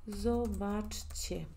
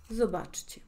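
First: Zobaczcie very slow, split into syllables; slow demonstration. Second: Said in the usual way. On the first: Shown as a demonstration. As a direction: sound out zobaczcie piece by piece for learners. (zobaczcie muy lento, separando las sílabas)

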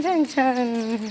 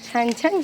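First: Slow drawn-out praise. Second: Said in the usual way. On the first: Real, not acted. Mother admiring her son riding well, slow drawn-out praise. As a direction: stretch each छान out slowly and softly.

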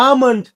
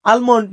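First: "আমন্ড" with a silent L; "আমন্ড" with a long "aa" straight into M; correct pronunciation. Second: "আলমন্ড" with the L sounded; "আলমন্ড" with a clear L before the M; common mispronunciation. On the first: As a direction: say "আমন্ড" as aa-mond. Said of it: "এই এল এর উচ্চারণটা নাই". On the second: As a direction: say "আলমন্ড" as al-mond. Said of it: "এটা আলমন্ড না". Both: Shown as a demonstration.

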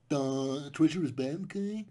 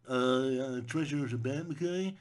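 First: Dopey voice, drawn-out duh, rising okay; dumb moralizing voice. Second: Slow, dopey voice with a rising okay; dumb moralizing voice. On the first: Mocking the movie's intelligent message, dopey voice. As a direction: sound like a dim know-it-all. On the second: Mocking the films' anti-treasure moral, dopey voice. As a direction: play the movie as a dim preacher. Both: Acted.

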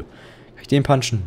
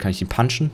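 First: "den" drawn out and stressed; slow, stress on den. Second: Said in the usual way. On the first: Real, not acted. Gamer asking again if he can hit the patient, slower. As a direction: ask again slowly, leaning on "den".

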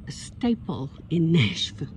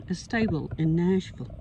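First: Staple with a crisp p; corrected staple. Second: Stable with a voiced b sound; mispronounced stable. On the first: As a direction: says staple clearly with p. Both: Real, not acted.

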